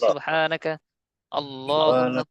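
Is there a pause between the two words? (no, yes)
yes. The two words are said with a break between. The speaker calls it wrong. "যদি এভাবে পড়েন ... ভুল হবে না"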